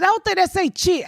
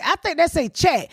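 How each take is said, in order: First: "chit" stressed, said higher; pondering which way to read the sign. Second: "chat" stressed at the end with a falling tune; settling on a reading of the sign. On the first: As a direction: land on the word chit. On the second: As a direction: land on the word chat. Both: Retold or imitated. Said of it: "I said".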